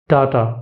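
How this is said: It is said in a British accent. "In British accent"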